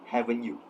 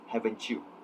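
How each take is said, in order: First: The t and y sounds stay separate. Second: The t and y merge into a ch sound. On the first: "the interviewee pronounced it as haven't you" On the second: "in received pronunciation, this would normally be pronounced as haven't you, where the th and y sound combine to form ch"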